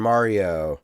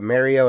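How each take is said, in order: First: MARIO starting MAR, with open AH; AH-sound Mario. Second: MARIO starting like MARRY; short-A Mario. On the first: Contrasting jarring versions, Mario with AH. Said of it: "that's jarring to me". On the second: Contrasting jarring versions, Mario said like marry-oh. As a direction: say Mario as MARE-ee-oh. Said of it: "Those don't sound the same". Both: Shown as a demonstration.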